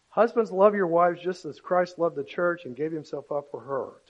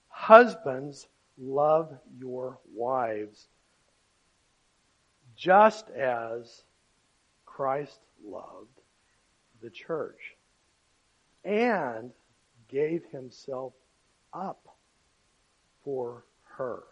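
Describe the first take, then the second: First: It is read at a normal, quicker pace. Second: It is read more slowly and deliberately.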